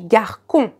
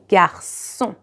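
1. De c wordt uitgesproken als een harde k. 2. De c wordt uitgesproken als een zachte s. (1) "If I do not put une cédille, it's going to be garcon" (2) "So I need the cédille to be garçon"

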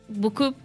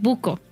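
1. La palabra se pronuncia como en francés. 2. La palabra se pronuncia al estilo del español panameño. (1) "en vez de decir beaucoup" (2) "dicen buco"

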